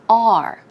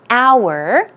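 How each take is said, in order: First: It is said with one syllable, like 'are'. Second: It is said with two syllables, like 'hour'. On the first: "as an A R E" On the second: "as an H O U R"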